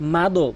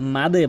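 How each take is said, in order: First: The final d is followed by an 'o' vowel. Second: The final d ends with a short light bounce. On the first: The speaker calls it wrong. "এখানে মাদো কখনোই বলতে পারবেন না" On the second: The speaker calls it right. "মাদে বলতে হবে"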